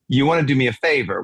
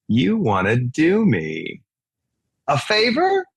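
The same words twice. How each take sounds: First: It is said without a pause. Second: There is a pause inside the line.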